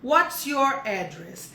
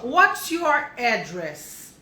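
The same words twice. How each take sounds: First: Slow, even repeat; slow model repeat. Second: Very slow, drawn-out model question. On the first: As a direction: say it again slowly and plainly. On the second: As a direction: stretch every word for learners. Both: Shown as a demonstration. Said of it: "esse aqui é interessante".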